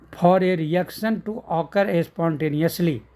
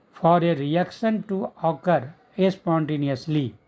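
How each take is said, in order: The two takes are said the same way.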